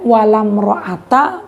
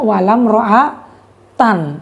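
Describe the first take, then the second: First: The last word ends in a plain -a. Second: The last word ends in -an. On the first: The noun takes the fatha ending without tanwin. The speaker calls it right. "dua fatah" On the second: The noun is in the accusative case. The speaker calls it wrong. "Tidak boleh dibaca"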